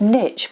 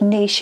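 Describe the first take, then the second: First: The word is said with non-French pronunciation. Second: The word is said with French pronunciation.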